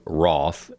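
It is said in a British accent.

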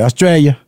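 It is said in a Houston, Texas accent.

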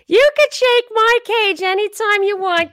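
She says it imitating her mother's voice.

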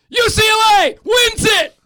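It is said in an excited tone.

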